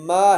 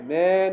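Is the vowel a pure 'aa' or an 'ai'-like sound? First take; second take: aa; ai. First: The vowel is a pure open aa. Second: The vowel drifts toward an ai sound. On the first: The speaker calls it right. "मा है" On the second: The speaker calls it wrong. "मैं नहीं है, मैं ये मजहूल है"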